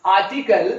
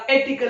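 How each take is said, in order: First: "आर्टिकल" opening on a long "aa"; "आर्टिकल" with first vowel आ, not ए; correct pronunciation. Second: "एटिकल" opening on "ay" instead of "aa"; mispronunciation. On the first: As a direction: say "आर्टिकल" as "aa-ti-kal". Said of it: "pronunciation जो होना चाहिए था". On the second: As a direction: say "एटिकल" as "ay-ti-kal". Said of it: "वह बदल गया". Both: Shown as a demonstration.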